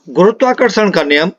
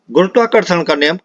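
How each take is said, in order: Both takes have the same delivery.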